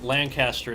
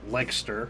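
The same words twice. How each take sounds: First: All the syllables are pronounced fully. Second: The middle syllables are dropped.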